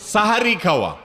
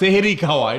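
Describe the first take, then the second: First: The first syllable has an 'a' vowel. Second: The first syllable has an 'e' vowel. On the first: It means the pre-dawn meal. The speaker calls it right. "কথাটা হবে কি? সাহারি খাওয়া।" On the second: It would mean eating magic. The speaker calls it wrong. "আমাদের দেশে বলে সেহেরি খাওয়া, এটা ভুল কথা।"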